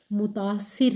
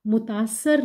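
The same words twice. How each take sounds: First: मुतासिर with i before r; correct pronunciation. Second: मुतासर ending in -sar; wrong pronunciation. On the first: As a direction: teach मुतासिर, ending -sir. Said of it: "मुतासिर है". (सही उच्चारण मुतासिर) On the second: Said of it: "मुतासर नहीं है". (गलत उच्चारण मुतासर) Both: Shown as a demonstration.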